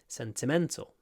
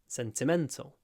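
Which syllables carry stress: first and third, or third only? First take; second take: third only; third only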